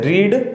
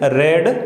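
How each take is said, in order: First: The vowel is a long 'ee' sound. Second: The vowel is a short 'eh' sound. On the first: It is the present form of the verb. "First form होते हैं उसको रीड बोलते हैं" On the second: It is the past form of the verb. "Second होते हैं उसको रेड बोलते हैं"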